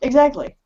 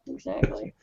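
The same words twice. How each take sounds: First: Said in the usual way. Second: A breathy whispered "Exactly."; whispered echo. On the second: Acted. Guest echoes his own agreement in a whisper. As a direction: say "Exactly." again under your breath as a whisper.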